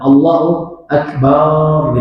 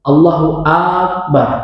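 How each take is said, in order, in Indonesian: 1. Bunyi ba pada Akbar dibaca panjang. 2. A pertama pada Akbar dibaca panjang. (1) "banyak dipanjangkan" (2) "huruf hamzah dalam kalimat atau kata akbar itu yang dipanjangkan"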